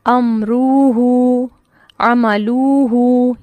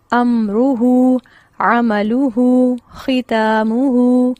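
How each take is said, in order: First: امروہ and عملوہ stretched evenly, very slow and loud; wrong pronunciation. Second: امروہ عملوہ ختاموہ with only the final واو long, very slow; correct pronunciation. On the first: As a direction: demo the mistake in امروہ، عملوہ slowly. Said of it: "جیسے میں غلط pronunciation بتا رہی ہوں". (غلط تلفظ، امروہ عملوہ کو یکساں کھینچ کر) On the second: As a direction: model each word, stretch just the ending. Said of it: "یہ لفظ کس طرح پڑھا جائے گا؟". (درست تلفظ، صرف آخری واو لمبی) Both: Shown as a demonstration.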